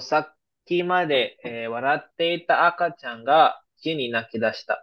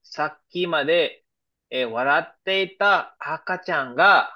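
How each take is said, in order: First: Slow, careful repeat of the example sentence; slow example read again. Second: Slow, deliberate reading of the example sentence. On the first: Teacher repeating the example sentence for students, slow and clear. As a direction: drag each phrase out so students catch it. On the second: Teacher reading an example sentence to students, slow and careful. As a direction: spell it out slowly for the class. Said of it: "Yeah, example number one". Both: Shown as a demonstration.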